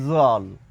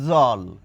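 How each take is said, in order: First: The word starts with a z sound. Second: The same.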